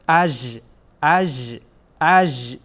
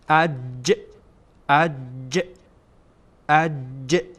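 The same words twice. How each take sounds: First: The sound buzzes on without stopping, like 'zh'. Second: The sound is fully stopped, like English 'j'. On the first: The speaker calls it wrong. "اگر خواسته باشیم ژ تلفظ بکنیم، ببینید چی میشه" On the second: The speaker calls it right. "قسمت وسط زبان برخورد میکنه به قسمت کام بالا، اصلا صدا بند میشه"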